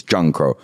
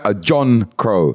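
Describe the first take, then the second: First: "John Crow" quicker and lower, like "Junkro"; Patois pronunciation. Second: "John Crow" slowly, in clear English vowels; English pronunciation. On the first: Patois take after English one. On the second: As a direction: say "John Crow" slow and separated. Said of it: "that's how it's pronounced in English". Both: Shown as a demonstration.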